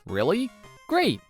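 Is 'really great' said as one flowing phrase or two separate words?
one phrase. Said as one flowing, enthusiastic phrase. The speaker means it is truly great. The speaker calls it right.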